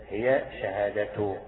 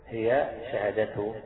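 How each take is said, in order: Both takes have the same delivery.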